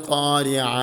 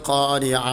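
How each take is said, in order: Both takes have the same delivery.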